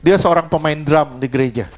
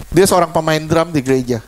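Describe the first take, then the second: No difference in how they are said.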